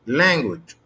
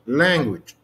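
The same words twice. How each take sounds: First: The stress is on the first syllable. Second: The same.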